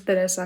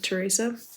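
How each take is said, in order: First: The name is said with a Spanish accent. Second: The name is said with an English accent.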